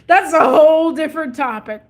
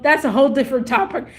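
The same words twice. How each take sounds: First: "whole" stressed, higher and louder; emphatic repeat. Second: Said in the usual way. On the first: Real, not acted. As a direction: lean hard and long on "whole".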